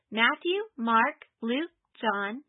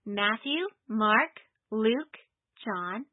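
First: The list is recited at a faster pace. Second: The list is recited at a slower pace.

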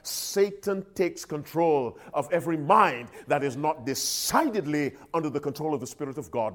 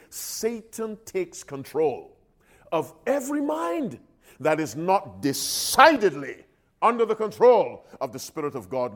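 First: It is said at a normal pace. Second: It is said slowly and deliberately.

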